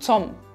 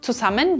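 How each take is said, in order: First: The word is cut down to one syllable. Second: The word is said in full, three syllables. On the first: "Zusammen wird zu Zum" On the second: "Wir reduzieren Wörter sehr stark"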